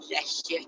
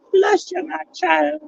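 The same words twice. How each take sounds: First: Said in the usual way. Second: High, lofty vicar voice; priestly blessing. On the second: Pretend. Sneeze, then a mock blessing.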